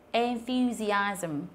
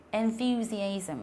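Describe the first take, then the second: First: Enthusiasm drawn out syllable by syllable; en-thu-si-asm, each part held; slow model word. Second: Enthusiasm again, very slow and a bit softer; enthusiasm, drawn out a second time; slow repeat. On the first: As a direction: stretch out enthusiasm very slowly. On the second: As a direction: repeat enthusiasm slowly for the class to copy. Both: Shown as a demonstration. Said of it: "ví dụ như là từ".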